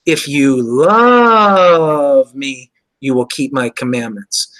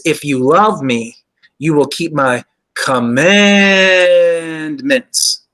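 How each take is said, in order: First: "love" held long and slow; "love" carries the weight of the line; stress on love. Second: "commandments" drawn out slowly with a falling end; stress on commandments. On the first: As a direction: linger on "love" and let "commandments" fall away. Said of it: "that's where the emphasis changes". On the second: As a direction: lean into "commandments" and stretch the whole line out. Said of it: "The emphasis on the word commandments". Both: Shown as a demonstration.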